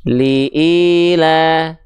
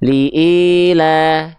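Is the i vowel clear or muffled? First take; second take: muffled; muffled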